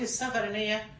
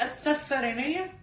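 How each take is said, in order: First: السفرينية with a short single F; no shadda on the ف in السفرينية; without gemination. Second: السفرينية with a doubled, held F. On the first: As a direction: say السفرينية lightly as "as-safariniyya". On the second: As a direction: stress the shadda on the ف in السفرينية. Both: Shown as a demonstration. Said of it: "بدون تشديد".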